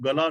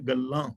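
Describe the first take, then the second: First: Single l and an oral final vowel. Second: Doubled l and a nasal final vowel. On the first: The word would mean neck. The speaker calls it wrong. "ਇਹਨੂੰ ਗਲਾ ਨਹੀਂ ਪੜਨਾ" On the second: The word means talk or words. The speaker calls it right. "ਗੱਗੇ ਤੇ ਅੱਧਕ ਔਰ ਲੱਲੇ ਦੇ ਨਾਲ ਬਿੰਦੀ ਲਗਾ ਕੇ"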